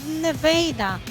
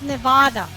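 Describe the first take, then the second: First: Said the way local residents pronounce the state. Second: Said the way outsiders pronounce the state. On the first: The speaker calls it right. "they say ne- Nevada" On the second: The speaker calls it wrong. "not Nevada"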